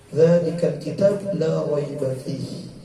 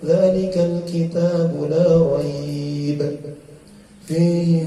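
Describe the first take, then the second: First: The word raib ends with an a vowel. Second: The word raib ends without a final vowel. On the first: "Kita lebih seringnya la raiba fihi" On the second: "Jarang membaca la raib"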